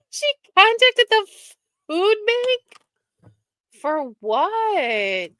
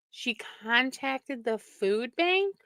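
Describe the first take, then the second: First: High, loud, stunned exclamation; can't believe what you just read; outraged high-pitched shock; shocked disbelief. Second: Softer and slow, stunned repeat; hushed, incredulous murmur; quiet disbelief. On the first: Shocked by news about Jane. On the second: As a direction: say it again to yourself, slowly. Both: Real, not acted.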